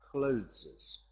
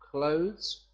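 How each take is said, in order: First: The word ends with an extra syllable. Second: The word ends without an extra syllable. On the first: The speaker calls it wrong. "not clotheses" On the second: The speaker calls it right.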